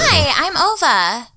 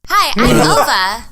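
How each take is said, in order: First: It is said in a cheerful voice. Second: It is said in a plain voice.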